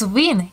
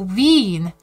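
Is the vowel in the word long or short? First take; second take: short; long. First: The vowel in the word is short. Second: The vowel in the word is long.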